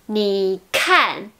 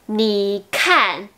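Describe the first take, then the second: No difference in how they are said.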